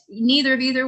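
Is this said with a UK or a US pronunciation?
US. It is said with an American-style pronunciation. "more U S friendly"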